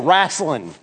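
It is said in a Southern accent.

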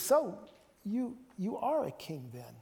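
It sounds earnest and questioning. The asker sincerely wants to know the answer. "I sense maybe this is Pilate searching"

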